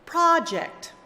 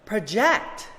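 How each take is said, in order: First: The stress is on the first syllable. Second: The stress is on the second syllable. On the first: It is used as a noun. "read the nouns with the stress on the first syllable" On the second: It is used as a verb. "the opposite"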